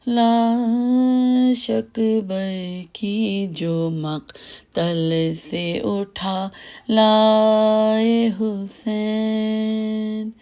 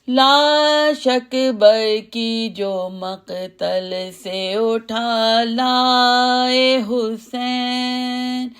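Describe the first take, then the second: First: It is recited slowly, like ordinary talk. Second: It is recited loudly at a high pitch.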